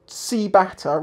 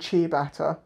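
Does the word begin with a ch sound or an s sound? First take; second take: s sound; ch sound. First: The word begins with an s sound. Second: The word begins with a ch sound. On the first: Others say it as it is spelled in English. "They call them ciabatta because it starts with the C" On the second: It follows the original Italian pronunciation. "rather than"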